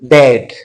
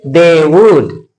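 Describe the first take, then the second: First: The words are joined into one contracted syllable. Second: Both words are said fully and separately. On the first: The speaker calls it right. "You say dead" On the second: The speaker calls it wrong. "Don't say they would"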